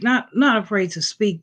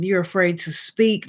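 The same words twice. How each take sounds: First: Not pushed out firmly as a correction; correcting yourself, hit Not; stress on Not. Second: Said in the usual way. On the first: Real, not acted. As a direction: lean on the first Not, then repeat it.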